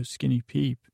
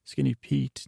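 First: "Skinny Peep" with the name ending in a p sound, like the candy; slip of the tongue. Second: "Skinny Pete" ending cleanly on a t; correcting the name. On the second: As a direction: fix the slip and land the final t of "Pete". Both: Real, not acted. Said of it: "not Peep".

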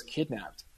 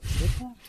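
First: Barely voiced, flat falling Kidnapped?; mouthed. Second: Kidnapped? pitched much higher with a rising question; mouthed in surprise. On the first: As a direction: silently mouth Kidnapped? in disbelief. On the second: Retold or imitated. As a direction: mouth Kidnapped? back, eyebrows-up incredulous. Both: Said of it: "mouthed it to each other".

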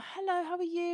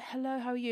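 First: High, eager retold hello; greeting him. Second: Lightly voiced friendly reply, a little raised; his greeting back. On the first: Fan greeting Sylvester at his table, high retold hello. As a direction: act out a nervous fan's high-pitched greeting. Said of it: "and I'm like". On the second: Sylvester answering a fan's hello, lightly imitated greeting. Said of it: "And he's like".

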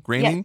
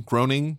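First: Groening? said as GRAY-ning, quick and rising; Groening as GRAY-ning, short and unsure; alternate pronunciation. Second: Groening? said with a long o, as GROH-ning, asking; trying Groening as GROH-ning with a questioning rise; Groening as GROH-ning, tentative rising tone; unsure pronunciation. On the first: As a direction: try Groening with an ay sound, GRAY-ning, questioning. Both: Shown as a demonstration.

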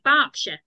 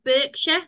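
First: Berkshire said as "BARK-sher"; British Berkshire. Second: Berkshire said as "BURK-sher"; Berkshire as spelt. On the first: Host showing how they say it, Berkshire as "BARK-sher". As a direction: say Berkshire with an "ar" first vowel. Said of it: "but they pronounce, pronounce it like". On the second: Host showing how it reads, Berkshire as "BURK-sher". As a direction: say Berkshire with an "ur" first vowel. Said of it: "if you read it, you think". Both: Shown as a demonstration.

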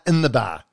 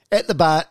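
First: "in" stressed, falling tune. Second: "At" stressed and rising slightly. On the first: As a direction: land firmly on "in" as the correction. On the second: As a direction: lean on "At the bar", then correct it. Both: Shown as a demonstration.

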